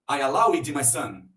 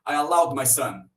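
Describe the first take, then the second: First: The ending is an extra syllable, 'id'. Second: The ending is a plain D sound. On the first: The speaker calls it wrong. "Vamos terminar, vamos tentar com id. ... Parece meio forçado" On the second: The speaker calls it right. "Vamos ver com D. ... com D encaixa melhor"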